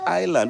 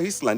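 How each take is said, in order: First: The word is said with a silent s. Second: The word is read letter by letter, s sounded. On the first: The speaker calls it right. "it's Island" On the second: The speaker calls it wrong. "It's not Island"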